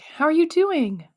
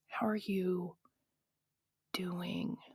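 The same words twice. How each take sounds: First: It sounds cheerful and supportive. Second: It sounds doubtful and pitying.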